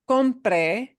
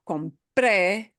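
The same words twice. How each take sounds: First: The stress is on the first syllable. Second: The stress is on the final syllable. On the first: It is the subjunctive: that I buy. "compre es el subjuntivo" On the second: It is past: I bought. "when you punch that e ending, it is no longer subjunctive"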